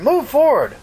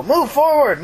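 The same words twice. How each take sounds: First: High-pitched urgent repeat, stress on "move"; repeated radio order. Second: High-pitched urgent command, stress on "forward"; radio order shout. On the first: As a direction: call it again, punching "move". Son shouts order into radio. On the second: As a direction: call out the order, leaning on "forward". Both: Retold or imitated.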